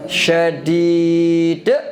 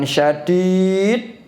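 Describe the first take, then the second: First: The final d is released with a bouncing echo. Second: The final d is held closed without release. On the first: The speaker calls it right. "yang benar syadid" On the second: The speaker calls it wrong. "Bukan syadid, salah"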